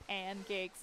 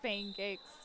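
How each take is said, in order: First: The name is said without an extra i sound. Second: The name is said with an extra i sound. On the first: The speaker calls it wrong. "I called her pancakes instead" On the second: The speaker calls it right. "there was an I in pancakes"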